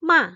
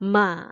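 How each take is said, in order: First: The syllable sounds sharp, like an angry voice. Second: The pitch goes up and then comes down. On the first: "seperti kayak orang marah gitu" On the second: "Naik turun gitu ya"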